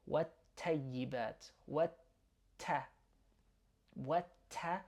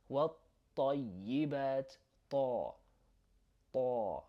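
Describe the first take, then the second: First: والطيبات with a thin English T; wrong light T. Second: والطيبات with a heavy emphatic T; heavy Arabic T. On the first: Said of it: "That's not correct". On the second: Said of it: "You wanna say". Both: Shown as a demonstration.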